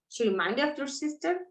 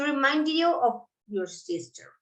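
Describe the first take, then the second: First: The voice rises at the end. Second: The voice falls at the end. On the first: It asks a question, showing surprise. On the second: It states a fact.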